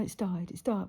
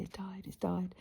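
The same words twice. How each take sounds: First: Said in the usual way. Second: Soft, hushed and gentle; very gently. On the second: Retold or imitated. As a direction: break the news tenderly, almost whispering. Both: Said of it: "I said very gently".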